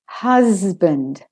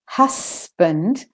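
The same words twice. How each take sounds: First: The middle consonant is a buzzing Z. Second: The middle consonant is a hissing S. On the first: The speaker calls it right. "I say husband" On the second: The speaker calls it wrong. "I don't say husband"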